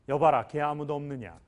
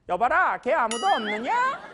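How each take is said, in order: First: The voice is deep and resonant. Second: The voice is high and thin. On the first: "왕은 다 소리가 그렇잖아요" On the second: "거꾸로 해보시라고요"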